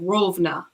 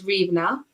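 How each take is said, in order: First: The name is said in its Russian form. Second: The name is said in its Ukrainian form. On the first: "Rovna in in in Russian" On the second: "where I lived was Rivna"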